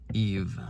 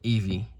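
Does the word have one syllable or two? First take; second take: one; two. First: The final E is silent, giving one syllable. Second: The final E is sounded as a second syllable. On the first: The speaker calls it right. "The last E is silent" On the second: The speaker calls it wrong. "not Evie"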